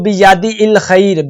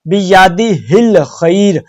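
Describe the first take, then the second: First: The h sound before 'il' is dropped. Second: The h sound before 'il' is clearly pronounced. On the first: The speaker calls it wrong. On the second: The speaker calls it right.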